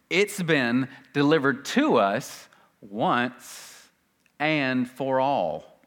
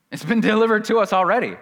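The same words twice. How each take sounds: First: Very slow, measured phrases; slow emphasis. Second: High, loud, quick burst; emphatic insistence. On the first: Preacher driving home "once and for all", slow and deliberate. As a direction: weigh out every phrase with pauses. Same point repeated word by word. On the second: Preacher insisting to congregation it's already delivered, loud and emphatic. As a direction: press it home loudly in one rush. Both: Real, not acted.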